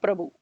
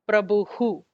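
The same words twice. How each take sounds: First: The word ends on a plain vowel. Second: The word ends with an echoing h breath. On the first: It addresses someone directly. The speaker calls it wrong. "It is not Prabhu" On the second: It names the subject. The speaker calls it right. "at the end we have Prabhu"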